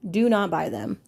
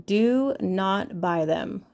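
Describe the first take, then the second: First: Said in the usual way. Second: Slow, stressed "do not buy them"; emphatic warning. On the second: Shown as a demonstration. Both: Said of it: "warning listeners".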